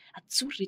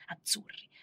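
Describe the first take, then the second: First: "azzurri" higher at first, then falling to a close; falling answer. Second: "Azzurri" said softly with a rising tune; rising call. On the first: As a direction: let "azzurri" drop and settle. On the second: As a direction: lift the end of "Azzurri" like a question. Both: Retold or imitated. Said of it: "tutti i miei vestiti sono azzurri".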